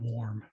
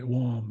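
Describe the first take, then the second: First: The word is said with an R sound. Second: The word is said without an R sound. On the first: "the English word warm" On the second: "they've removed the R sound"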